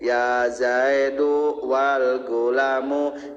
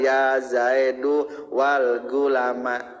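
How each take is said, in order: First: The last word ends with an 'u' vowel. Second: The last word ends with an 'a' vowel. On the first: The noun is read in the nominative case. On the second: The noun is read in the accusative case.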